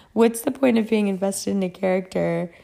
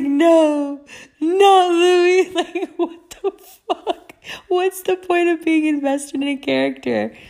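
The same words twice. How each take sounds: First: Said in the usual way. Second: High, loud mock sobbing; hammed-up tearful wail breaking into laughter; retold wailing. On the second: Reader mourning a vampire character, mock crying. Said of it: "I was crying. I was like".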